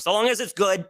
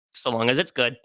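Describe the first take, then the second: First: High-pitched, lilting proviso; playful caveat. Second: Matter-of-fact caveat. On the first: Adding a condition on loving romance anime, high and lilting. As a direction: lift the whole phrase up high. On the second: Repeating the condition on romance anime, settled and matter-of-fact. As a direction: repeat it in a settled, everyday pitch. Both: Real, not acted.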